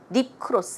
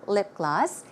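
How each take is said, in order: First: The second word starts with a K sound. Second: The second word starts with a G sound. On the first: The speaker calls it wrong. "It's not k, k sound" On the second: The speaker calls it right. "It's a G. So the pronunciation should be g"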